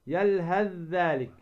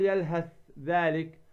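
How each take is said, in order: First: Slow "يلهث ذلك" as yalhadh-dhalik; tha merged into dhal. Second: "يلهث ذلك" with hissed th at the end of يلهث, then dh; wrong unmerged tha. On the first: Teacher correcting the error, ث of يلهث merged into ذ. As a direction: hold one voiced ذ from يلهث into ذلك. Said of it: "فتدغم الثاء في الذال". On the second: Teacher showing what not to say, voiceless ث left in يلهث. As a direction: keep ث of يلهث separate from ذلك. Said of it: "ما تقول". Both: Shown as a demonstration.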